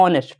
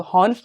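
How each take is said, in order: First: ऑनेस्ट with a silent H, opening straight on the O vowel; correct pronunciation. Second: हॉनेस्ट with a spoken H at the start; wrong pronunciation. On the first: Teacher gives class the right reading, silent H. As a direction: say ऑनेस्ट starting on the open O, no H. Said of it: "एच silent रहता है". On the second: Teacher shows students the wrong reading, sounding the H. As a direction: say हॉनेस्ट with a breathy H sound first. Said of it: "तो हॉनेस्ट नहीं होता". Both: Shown as a demonstration.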